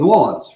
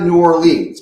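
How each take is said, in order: First: The city name is said the local way. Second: The city name is said in the disliked way. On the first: The speaker calls it right. "If you are from the city originally, as I am originally, you're allowed to say" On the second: The speaker calls it wrong. "and it's definitely not New Orleans"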